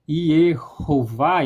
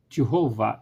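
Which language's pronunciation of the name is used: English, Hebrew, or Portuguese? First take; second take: Hebrew; English. First: It is said the Hebrew way, starting with Y. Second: It is said the English way, starting with J. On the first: "em hebraico" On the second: "em inglês"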